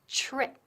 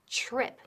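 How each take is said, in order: First: The t before the r sounds like ch. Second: The t before the r sounds like ch.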